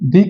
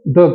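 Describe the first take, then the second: First: The vowel is a long 'ee' sound. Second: The vowel is a short 'uh' sound. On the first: It comes before a vowel sound. "दी हमेशा जो है दी जो है vowel sound के साथ लगता है" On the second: It comes before a consonant sound. "द जो है हमें कॉन्सोनेंट के साथ लगता है"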